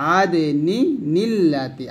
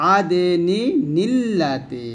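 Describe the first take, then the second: The two takes are said the same way.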